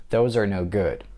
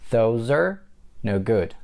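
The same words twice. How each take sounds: First: "Those are no good" in one unbroken run; connected speech. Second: "Those are", pause, then "no good"; broken-down demo. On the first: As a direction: link "Those" to a weak "are", no pause. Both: Shown as a demonstration. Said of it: "That's the way you connect are".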